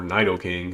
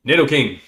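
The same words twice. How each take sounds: First: Nidoking with a long first vowel, "NIGH-doh-king"; long-i pronunciation. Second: Nidoking with a short first vowel, "NID-oh-king"; short-i pronunciation. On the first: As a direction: say Nidoking starting like "night". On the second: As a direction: say Nidoking starting like "nid", not "night". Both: Shown as a demonstration. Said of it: "knows actually the correct pronunciation".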